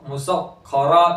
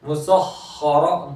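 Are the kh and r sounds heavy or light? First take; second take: light; heavy. First: The kh and r sounds are light and thin. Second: The kh and r sounds are heavy and full. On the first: The speaker calls it wrong. "ऐसा नहीं" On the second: The speaker calls it right. "पूर करेंगे"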